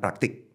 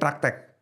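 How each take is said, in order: First: The last vowel is an 'i' sound. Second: The last vowel is an 'e' sound. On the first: This is the standard form. "yang baku itu katakan praktik" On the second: This is the preferred informal form. "Gue pengennya praktek"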